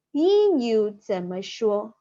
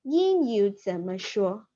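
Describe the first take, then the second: First: "英语怎么说" said slowly and clearly; slow model phrase. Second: "英语怎么说" repeated slowly. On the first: Teacher slowly modelling "英语怎么说" for students. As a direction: drawl out "英语怎么说" for learners. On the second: Teacher repeating "英语怎么说" for the class. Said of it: "It means that". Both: Shown as a demonstration.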